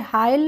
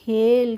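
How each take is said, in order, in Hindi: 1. यह स्वर 'eye' जैसा सुनाई देता है। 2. यह स्वर 'ay' जैसा सुनाई देता है। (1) "हाइल नहीं पढ़ेंगे" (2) "इसको पढ़ेंगे हेल"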